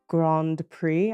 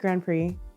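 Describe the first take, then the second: First: It is said carefully in a put-on accent. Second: It is said casually in a natural accent. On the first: "I feel like I'm doing a fake accent" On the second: "it sounds like I'm not at least falling over my mouth"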